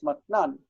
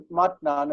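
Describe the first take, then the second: First: Mat-NAN, matnan stressed on the last syllable; corrected stress. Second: MAT-nan, matnan stressed on the first syllable; wrong stress. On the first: Teacher explaining accent marks, corrected stress mat-NAN for matnan. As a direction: put the weight on NAN in matnan. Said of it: "it's matnan". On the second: Teacher explaining accent marks, wrong stress MAT-nan for matnan. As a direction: put the weight on MAT in matnan. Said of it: "It's not mat". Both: Shown as a demonstration.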